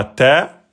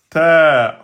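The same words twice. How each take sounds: First: "ta" on one short beat; short "ta", not prolonged; short vowel. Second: "ta" drawn out over two beats; long vowel. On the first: Teacher showing the wrong length, one-beat "ta". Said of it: "c'est pas ta". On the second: Teacher showing the new length, long "ta". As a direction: stretch the vowel of "ta". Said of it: "ta en deux temps". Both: Shown as a demonstration.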